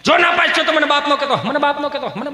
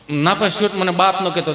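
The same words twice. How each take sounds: First: Raised, high-pitched threat; mock fatherly outburst; stern father. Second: Said in the usual way. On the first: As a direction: lay down an ultimatum to a son. Acts father threatening son.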